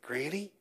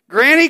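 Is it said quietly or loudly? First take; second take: quietly; loudly. First: It is said quietly. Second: It is said loudly.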